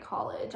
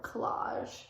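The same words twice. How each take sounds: First: Said in the usual way. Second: Slow, soft "collage", stressed on the second syllable; "collage" with a long ah and soft zh; collage, not college. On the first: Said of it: "I didn't write college". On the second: Shown as a demonstration. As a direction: stretch "collage" out as kuh-LAHZH. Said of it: "I wrote collage".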